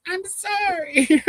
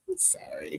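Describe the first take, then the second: First: High, slow drawn-out sorry; creepy slow apology from a killer; lightly voiced horror villain; mock Psycho killer. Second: High, hushed little sorry; a hint of a sweet killer's apology; mock soft apology. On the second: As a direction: apologize softly as if killing. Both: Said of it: "how Psycho went".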